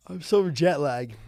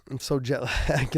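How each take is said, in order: First: Slow, sleepy yawn through the words. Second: Laughing. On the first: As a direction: talk through a jet-lagged yawn. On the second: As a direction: laugh breaking into the last word. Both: Real, not acted.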